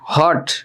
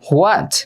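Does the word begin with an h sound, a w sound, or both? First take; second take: h; both. First: It begins with an h and no w. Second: It begins with an h followed by a w. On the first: "হট না হোয়াটও না, দুইটাই ভুল" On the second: "হট না হোয়াটও না, দুইটাই ভুল"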